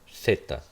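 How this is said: It begins with a th sound, peninsular.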